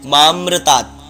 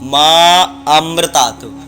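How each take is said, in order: First: The words run together without a long aa vowel. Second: A long aa vowel is heard before amritat. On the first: The speaker calls it wrong. "जैसे अब बहुत सारे लोग होते हैं माम्रतात" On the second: The speaker calls it right. "ये उच्चारण सही होता है"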